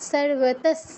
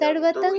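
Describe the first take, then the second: First: The word ends in an 's' sound. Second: The word ends in a nasal sound. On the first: The speaker calls it right. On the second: The speaker calls it wrong.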